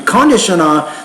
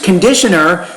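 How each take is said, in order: First: The stress falls on an unexpected syllable. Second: The stress falls on the usual syllable. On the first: The listener cannot understand the word. The speaker calls it wrong. "they don't know what it means" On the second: The listener understands the word. The speaker calls it right. "they can definitely understand it"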